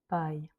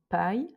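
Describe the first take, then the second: First: The P is released softly and gently. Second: The P is pushed out strongly and forcefully. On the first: The speaker calls it right. "mais plutôt pai" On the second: The speaker calls it wrong. "appuyé comme on dirait par exemple pai"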